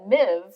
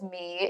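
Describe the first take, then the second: First: The name ends in a v sound. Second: The name ends in a long ee vowel. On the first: The speaker calls it wrong. "I probably would have said Miv" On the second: The speaker calls it right. "which they pronounced as me in the audiobook"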